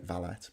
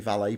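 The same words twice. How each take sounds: First: The word ends with a clear T sound. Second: The word ends without a T sound. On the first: This is the British way of saying it. The speaker calls it wrong. "We say valet in this country... You pronounce the T" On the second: This is the American way of saying it. The speaker calls it right. "they say valet properly"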